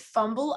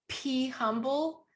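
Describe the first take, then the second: First: The name begins with an f sound. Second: The name begins with a p sound. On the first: "It's fumble" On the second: "I thought it was P humble, like be humble"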